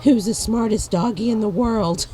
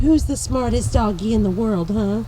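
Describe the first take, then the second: First: Louder, higher pet-talk praise; doggy praise. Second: Louder, higher teasing pet praise; doggy praise. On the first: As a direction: gush over the dog. Praising the dog. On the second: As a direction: gush over the dog with a teasing huh. Praising the dog again. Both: Real, not acted.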